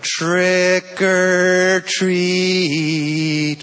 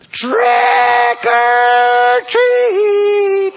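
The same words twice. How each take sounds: First: It is said a little louder. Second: It is yelled very loudly.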